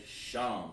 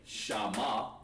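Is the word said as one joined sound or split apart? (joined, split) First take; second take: joined; split. First: The sounds run together as one syllable. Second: The sounds are split apart with an added vowel. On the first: The speaker calls it right. "you want to sound it all out together" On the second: The speaker calls it wrong. "you wouldn't say shama"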